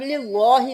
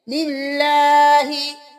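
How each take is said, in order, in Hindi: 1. l की आवाज़ मोटी और भारी बोली जाती है। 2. l की आवाज़ पतली और हल्की बोली जाती है। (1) "लिल्लाहि नहीं करेंगे" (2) "तो ये बारीक पढ़ेंगे"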